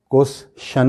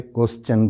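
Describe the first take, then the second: First: "کوسچن" split as kwes... shun; wrong pronunciation. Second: "کوسچن" as kwes-chun; correct pronunciation. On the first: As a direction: put SH in the ending of "کوسچن". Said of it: "کوسچن نہیں بولتے". ("کوسچن" کو غلط "کوس شن") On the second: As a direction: end "کوسچن" with a CH sound. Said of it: "کوسچن بولتے ہیں". ("کوسچن" کو "کوس چن" بولیں) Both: Shown as a demonstration.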